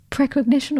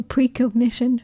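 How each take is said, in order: First: "precognition" with PREH as the first syllable; short-e pronunciation. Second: "precognition" with PREE as the first syllable; long-e pronunciation. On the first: Unsure speaker offers one way of pronouncing it, short-e "precognition". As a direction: say "precognition" starting preh, as in prep. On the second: Unsure speaker offers the other pronunciation, long-e "precognition". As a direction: say "precognition" starting pree, as in preschool. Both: Shown as a demonstration. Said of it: "I don't know whether I'm pronouncing this correctly".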